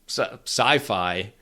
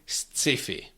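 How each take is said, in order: First: It is said with English pronunciation. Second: It is read as spelled, the Czech way. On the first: "which is sci-fi" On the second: "we just don't care about the pronunciation, and we say sci-fi"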